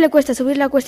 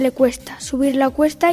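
First: It is spoken at a fast pace. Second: It is spoken at a normal pace. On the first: "Velocidad rápida" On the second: "A velocidad normal"

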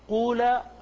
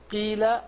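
First: The first vowel is a pure u. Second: The first vowel is a pure i. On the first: "ولا قولا" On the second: "ليست قيل"

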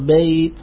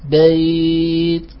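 First: The glide sound is held briefly. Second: The glide sound is held a medium length. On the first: "بالقصر" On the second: "توسط"

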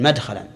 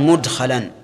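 First: The first vowel after m is a. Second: The first vowel after m is u. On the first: It would come from the three-letter verb meaning to enter. The speaker calls it wrong. "ولم يقل مدخلا" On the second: It comes from the four-letter verb meaning to bring in. The speaker calls it right. "صارت بضم الميم، لأنها من الرباعي"

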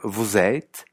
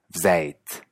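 First: The word 'vous' is said in full. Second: The word 'vous' is heavily shortened. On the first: "Puede ser vous êtes" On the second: "abreviar mucho el vous"

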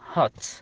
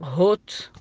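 First: The vowel sounds like ah. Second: The vowel sounds like oo. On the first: The speaker calls it right. "تنطق بالفتحة هات" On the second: The speaker calls it wrong. "ما تنطق هوت"

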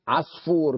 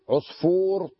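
First: The first syllable has the vowel a. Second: The first syllable has the vowel u. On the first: The speaker calls it wrong. "في ناس بيلفظوها عصفور بالفتح" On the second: The speaker calls it right. "من هذا الوزن كله بضم الأول"

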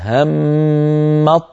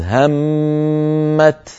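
First: The final t merges into a doubled emphatic ṭ. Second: The word ends in a clear, voiceless plain t. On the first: The word is joined to the next word. "همت نجعلها همط آخرها طاء، وندغم الطاء في الطاء التي بعدها فتصيران طاء واحدة مشددة هكذا" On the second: The reader stops after this word. "لو وقفنا على الكلمة الأولى التي هي همت نقف بالتاء"

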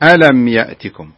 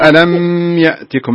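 First: The m flows straight into the next word. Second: The m is held before the next word. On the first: The speaker calls it right. "لا" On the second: The speaker calls it wrong. "لا تقف على الميم كثير يا أحمد، الميم لا تقول ألم يأتكم"

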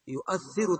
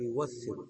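First: A glottal stop is heard in the middle. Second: A w sound replaces the middle glottal stop. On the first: "بالتحقيق الهمزة" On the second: "بقلب الهمزة واوا"

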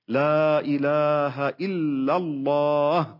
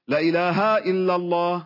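First: The opening 'la' is lengthened and held. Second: The opening 'la' is short and joined on. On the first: It denies any god but God. The speaker calls it right. "هذا فيه مد لا للنفي" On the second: It affirms that there is a god alongside God. The speaker calls it wrong. "بطريقتهم هذه جعلوها متصلة فتصير للتوكيد"

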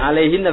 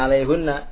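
First: The vowel after the h is i. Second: The vowel after the h is u. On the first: The speaker calls it right. "bunyinya jadi alaihinna" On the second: The speaker calls it wrong. "bukan alaihunna"

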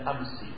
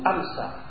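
First: The word ends with an i vowel. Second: The word ends with an a vowel. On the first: The word is in the genitive case. "dibaca dengan kasrah" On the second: The word is in the accusative case. "mansub dengan fathah"

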